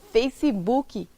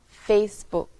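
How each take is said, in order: First: An extra vowel sound is added at the end. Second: The word ends cleanly on its final consonant. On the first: The speaker calls it wrong. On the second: The speaker calls it right.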